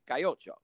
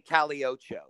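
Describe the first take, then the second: First: The double L is said like a Y. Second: The double L is said like an L. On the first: The speaker calls it right. "They say Cayocho, and everybody knows how to pronounce it" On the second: The speaker calls it wrong. "they don't say Caliocho"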